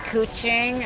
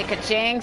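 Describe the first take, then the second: First: "ku-ching" opening on coo; "ku-ching", coo then ching; ku-ching pronunciation. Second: "ka-ching" opening on an unstressed kuh; "ka-ching", kuh then ching; ka-ching pronunciation. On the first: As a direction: say "ku-ching" with an oo vowel first. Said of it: "some people can say ku-ching". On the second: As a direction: say "ka-ching" with a short first vowel. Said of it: "some people say ka-ching". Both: Retold or imitated.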